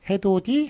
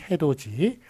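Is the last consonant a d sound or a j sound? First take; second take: d sound; j sound. First: The last consonant is a plain d sound. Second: The last consonant is a j sound. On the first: It matches how the word is spelled. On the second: It is how the word is actually pronounced.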